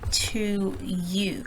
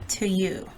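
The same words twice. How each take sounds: First: The word 'to' has a full vowel. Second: The word 'to' has a weak schwa. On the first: The speaker calls it wrong. "I didn't say to you" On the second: The speaker calls it right. "Some sentences with a schwa sound"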